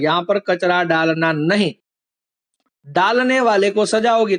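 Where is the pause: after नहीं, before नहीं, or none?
after. There is a pause right after नहीं. "एक वाक्य में अल्प विराम नहीं के बाद था"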